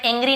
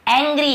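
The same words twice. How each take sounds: First: "एंग्री" as eng-gree, closed ay first; deliberately wrong narrow vowel in "एंग्री"; wrong ay pronunciation. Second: "एंग्री" as ANG-gree, open ae first; teacher modelling ae in "एंग्री"; correct ae pronunciation. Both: Shown as a demonstration. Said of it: "इसे मैं एंग्री नहीं बोल".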